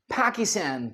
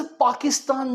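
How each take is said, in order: First: PAKISTAN as "pæ-ki-stæn"; American pronunciation. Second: PAKISTAN as "paa-ki-staan"; not American. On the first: Teacher quoting US presidents, "Pækistæn" पाकिस्तान. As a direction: say पाकिस्तान with cat-like a's. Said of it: "वो क्या बोलते हैं". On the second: Teacher on what presidents don't say, "Paakistaan" पाकिस्तान. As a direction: say पाकिस्तान with open aa's. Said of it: "पाकिस्तान नहीं बोलते". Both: Shown as a demonstration.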